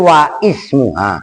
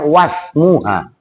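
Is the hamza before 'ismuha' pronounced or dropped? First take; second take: pronounced; dropped. First: The glottal stop before 'ismuha' is pronounced. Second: The glottal stop is dropped, linking into 'smuha'. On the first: The speaker calls it wrong. "Kan kamu tadi wa ismuha" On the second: The speaker calls it right. "Jadi bacanya wasmuha"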